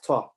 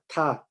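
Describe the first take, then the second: First: It is heavy, with a full mouth. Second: It is light, with a flat mouth. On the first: The speaker calls it wrong. "if we make ta full mouth, it becomes this" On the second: The speaker calls it right. "they're empty mouth. When we pronounce it, our mouth would be flat"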